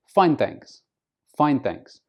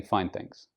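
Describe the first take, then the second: First: "Fine, thanks" pitched high on "Fine"; raised intonation. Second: "Fine, thanks" low and soft, no lift; flat intonation. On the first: Answering small talk politely, raised intonation. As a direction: lift "Fine, thanks" to sound polite and interested. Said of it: "You raise your intonation". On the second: Answering a question you didn't want, flat intonation. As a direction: drop "Fine, thanks" as if the question was unwelcome. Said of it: "respond with a flat intonation". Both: Shown as a demonstration.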